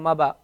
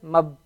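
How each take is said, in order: First: An a vowel follows the b. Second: No vowel follows the b. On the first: The speaker calls it wrong. "You can't say" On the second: The speaker calls it right. "Just mab"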